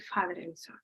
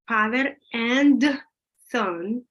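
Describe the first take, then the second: First: The word 'and' is reduced and run together. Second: Each word is said fully and separately. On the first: The speaker calls it right. "And then you say father and son" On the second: The speaker calls it wrong. "You don't say father and son because it takes forever"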